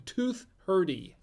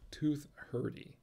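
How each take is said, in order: First: "tooth hurdy" slow with higher pitch; punchline delivery. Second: "Tooth hurdy" echoed softer to himself; quiet repeat. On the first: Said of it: "Two thir-, tooth hurdy". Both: Shown as a demonstration.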